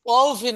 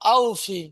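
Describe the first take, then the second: First: The word begins with a w sound. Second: The word begins with a plain vowel. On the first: The speaker calls it wrong. "ওয়াউফি নয়" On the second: The speaker calls it right.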